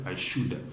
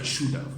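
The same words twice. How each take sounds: First: The word 'have' is reduced and linked. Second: The word 'have' is said in full. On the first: The speaker calls it right. "You can hear" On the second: The speaker calls it wrong. "we don't say"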